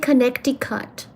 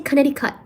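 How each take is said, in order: First: The middle c sound is clearly pronounced. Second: The middle c sound is left silent. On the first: "I say the C in it" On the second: "I don't say Connecticut. I could, but I refuse"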